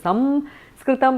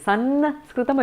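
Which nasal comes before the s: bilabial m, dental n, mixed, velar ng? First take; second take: bilabial m; dental n. First: The nasal before the s is an m. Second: The nasal before the s is a dental n. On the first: This is how the south says it. "In the south it is Samskritam" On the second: This is how the north says it. "in the north it is Sanskritam, a dental one"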